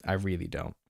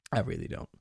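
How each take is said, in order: First: Said in the usual way. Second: Drops way down low for a playful deep take; same words again in a very low put-on voice; mock deep voice. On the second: Repeats line in a low voice.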